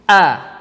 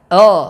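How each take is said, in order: First: The vowel is thin and open, like a. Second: The vowel is thickened, sounding like o. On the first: The speaker calls it right. "rongga mulut kita terbuka sekira-kira dua jari tangan kita" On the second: The speaker calls it wrong. "adanya suara tafkhim ataupun suara menebal pada huruf alif"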